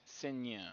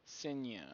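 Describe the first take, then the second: Both takes have the same delivery.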